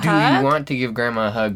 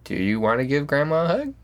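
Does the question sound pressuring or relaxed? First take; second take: pressuring; relaxed. First: The question sounds insistent and expectant. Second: The question sounds casual and easygoing. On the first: The child is expected to say yes. The speaker calls it wrong. "there's this expectation... And that's the energy" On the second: The child is free to say no. The speaker calls it right. "if you can just chill out... not coerce them unintentionally"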